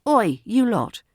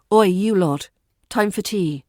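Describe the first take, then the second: First: Playful call. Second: Playful call-out. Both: Shown as a demonstration. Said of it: "a touch of humour".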